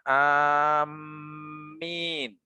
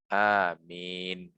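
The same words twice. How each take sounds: First: The m sound is held long and doubled. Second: The m sound is short and single. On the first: "dibolehkan membaca dengan mentasydidkan mim" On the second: "Yang paling aman, yang paling fasih, yang paling umum"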